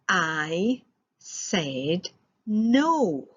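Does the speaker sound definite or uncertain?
definite. It is said firmly and with certainty. The refusal is final. "That sounds pretty definite"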